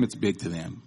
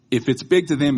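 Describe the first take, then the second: First: It's big to them said low and quieter; soft echo. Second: Big said louder with a falling tune; stress on big. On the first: Preacher echoing big to them quietly. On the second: Preacher stressing big to them. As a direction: punch big. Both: Shown as a demonstration.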